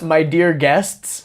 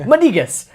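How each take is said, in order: First: It is said plainly, words clearly separated. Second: It is said in a thick accent, words run together.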